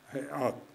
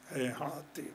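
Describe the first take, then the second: First: The final t is followed by an a vowel. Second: The final t is followed by an i vowel. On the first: This is the standard, well-known form. "بفتح التاء كما هو معلوف" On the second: This is the form used in less familiar dialects. "بكسر التاء"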